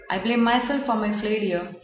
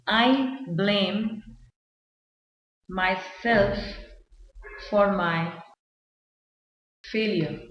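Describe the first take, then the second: First: Said in the usual way. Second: Slow, with long pauses between phrases; halting, spaced-out example sentence; word-by-word dictation. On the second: Shown as a demonstration. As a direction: dictate it piece by piece as if writing it out. Writing the example out.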